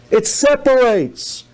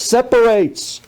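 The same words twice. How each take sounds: First: Separates drawn out slowly, weight on every syllable; slow stress on separates. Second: Said in the usual way. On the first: Shown as a demonstration. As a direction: lean on separates, slow and deliberate.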